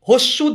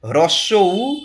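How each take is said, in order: First: The two words are merged into one short word. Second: The two words are said separately and fully. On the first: The speaker calls it wrong. "হস্যু দীর্ঘ বলে কিচ্ছু হয় না" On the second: The speaker calls it right. "কি হয়? হ্রস্ব উ"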